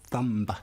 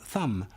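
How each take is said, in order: First: The word ends with a sounded b. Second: The word ends with a plain m sound. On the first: The speaker calls it wrong. "not thumb" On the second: The speaker calls it right. "and thumb"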